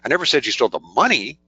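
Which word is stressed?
money. The word "money" is stressed. "Implies maybe you stole something else"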